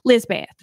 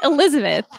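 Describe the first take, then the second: First: Lizbeth said short as two syllables, LIZ-beth; Southern Lizbeth. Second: Said in the usual way. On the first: Retold or imitated. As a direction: clip Elizabeth down to Lizbeth like she did. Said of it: "she'd say in her accent". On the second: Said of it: "It wasn't Elizabeth".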